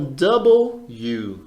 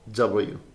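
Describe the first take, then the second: First: The letter name is said slowly and fully. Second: The letter name is said quickly and compressed. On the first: "você falar devagarinho" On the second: "vai aumentando um pouquinho a velocidade até você falar W"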